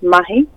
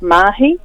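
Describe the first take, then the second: First: The first vowel is short. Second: The first vowel is long. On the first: The speaker calls it right. "that's a short A, so it's mahi" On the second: The speaker calls it wrong. "you might hear people talk about mahi"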